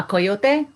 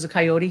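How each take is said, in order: First: Coyote said the Spanish way, ko-YO-te. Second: Said in the usual way. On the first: Shown as a demonstration. Teacher reading to children gives the Spanish coyote. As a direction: say coyote as in Spanish, three clear syllables ending in e. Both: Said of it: "which is a coyote here".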